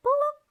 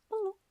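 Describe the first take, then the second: First: Much higher, louder pleading; whiny demand. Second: Said in the usual way. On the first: Acted. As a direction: beg for a hug like a spoilt child. Begging for a hug. (merengek minta peluk, tinggi dan keras)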